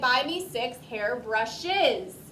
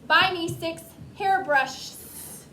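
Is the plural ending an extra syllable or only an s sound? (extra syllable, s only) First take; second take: extra syllable; s only. First: The plural ending is an extra syllable. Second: The plural ending is only an s sound. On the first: The speaker calls it right. "We say" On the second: The speaker calls it wrong. "we would not say"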